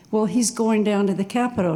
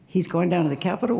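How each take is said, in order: First: Said in the usual way. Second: Quick echo question, rising on "Capitol". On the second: Retold or imitated. Querying a bystander's news about Trump, questioning rise on "Capitol". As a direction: repeat it back puzzled, lifting the end on "Capitol".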